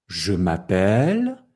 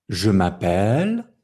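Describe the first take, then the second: No difference in how they are said.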